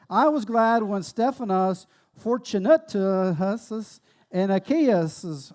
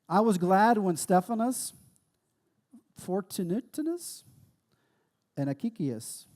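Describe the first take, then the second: First: It is read boldly and confidently. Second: It is read hesitantly and unsure.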